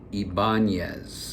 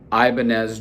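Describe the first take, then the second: First: The name is said in the Spanish-style way. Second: The name is said in a common anglicized way. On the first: The speaker calls it right. "Ibanez is the correct way" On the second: The speaker calls it wrong. "Excuse me, I said it wrong"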